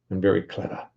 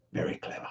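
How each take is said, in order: First: Said in the usual way. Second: Breathy aside, barely voiced; very clever murmured under the breath; whispered echo. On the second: Real, not acted. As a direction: whisper the repeat to yourself. Repeats the praise quieter.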